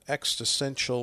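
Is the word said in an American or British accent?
American. The word is said in a plain American accent.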